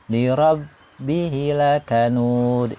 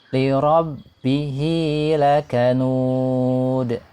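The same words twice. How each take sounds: First: The 'hi' vowel is cut short. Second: The 'hi' vowel is held for two counts. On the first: The speaker calls it wrong. "tidak boleh misalnya baca pendek" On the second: The speaker calls it right. "Dibaca panjang dua harokat ya"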